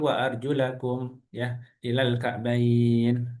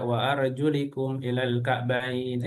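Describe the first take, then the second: First: The word ends with an a-vowel, arjulakum. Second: The word ends with an i-vowel, arjulikum. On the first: The speaker calls it right. "Yang betul" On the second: The speaker calls it wrong. "eh salah nak"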